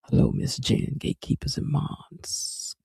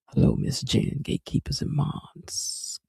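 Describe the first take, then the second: First: It is said in a deep, growly men's voice. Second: It is said in a deep, growly men's voice.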